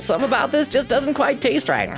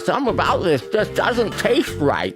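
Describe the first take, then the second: First: It is spoken clearly with an empty mouth. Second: It is spoken muffled with food in the mouth. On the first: The speaker calls it wrong. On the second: The speaker calls it right.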